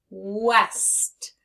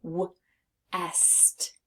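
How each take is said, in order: First: Said in the usual way. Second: W-est split, a gap after the W; sounding out. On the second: Shown as a demonstration. Teacher testing a new ending, W-est sounded out in two parts. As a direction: say W alone, then est, softer. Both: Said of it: "I'm gonna need to change that final sound".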